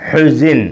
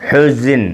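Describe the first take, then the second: Both takes have the same delivery.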